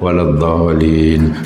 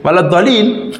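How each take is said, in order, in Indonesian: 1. Dibaca pelan-pelan dan lembut. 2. Dibaca dengan cara keras dan tegas. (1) "ada yang perlahan" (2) "kalau imam agak-agak degil sikit"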